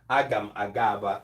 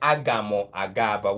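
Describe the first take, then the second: First: The first word ends in a plain m sound. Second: The first word ends with an added o vowel. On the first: The speaker calls it right. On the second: The speaker calls it wrong.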